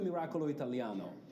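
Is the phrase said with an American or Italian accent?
American. It is said with an American accent. The speaker calls it wrong. "I'm actually pronouncing with a strange American accent"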